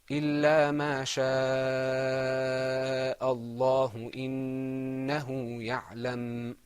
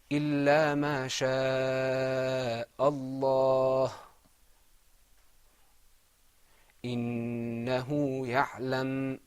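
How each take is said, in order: First: It flows on without a pause after Allah. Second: It stops with a pause after Allah.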